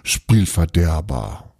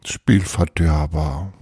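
First: Slow, pouting grumble that falls away; sulky pout. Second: Slow echo with a lifted ending; repeated mock sulk. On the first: A narrator's reading. Magician denied his bear, sulky pout. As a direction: drag out Spielverderber in a mild sulk. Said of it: "Tapani zog ein Flunsch". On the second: Reader echoing the pouting magician, mock sulk. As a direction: draw out Spielverderber, musing on it. Reader savours the sulky word afterwards.

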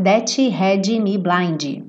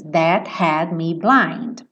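First: "that had me blind" with an added vowel after each final consonant; sung as "thatchi hadji me blindi"; wrong extra vowels. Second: "That had me blind" with no added vowels after consonants; slow, crisp "That had me blind"; clean final consonants. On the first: Teacher showing students the wrong pronunciation. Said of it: "você nunca cantar that had me blind". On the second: Teacher showing students the right pronunciation. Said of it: "tira a vogal dessas letras". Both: Shown as a demonstration.

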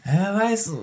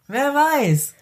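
First: Said in the usual way. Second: Pitched up high, teasing and drawn out; mock mysterious. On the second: Friend teases about going grey, pitched high. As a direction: float it up high like a playful riddle. Musing aloud during banter.

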